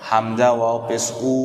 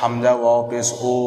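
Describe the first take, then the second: First: The final vowel is a long u. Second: The final vowel sounds like an o. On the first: The speaker calls it right. "এটা মারুফ" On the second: The speaker calls it wrong. "এটা মজহুল, এটা হচ্ছে অশুদ্ধ"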